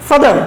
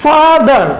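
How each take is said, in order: First: Said in the usual way. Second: "Father" slowly, in two separate beats; teacher breaking "Father" into two syllables; split into syllables. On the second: Shown as a demonstration. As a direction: stretch "Father" out as fa-ther. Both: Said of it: "ভেঙে ভেঙে উচ্চারণ করতে পারি".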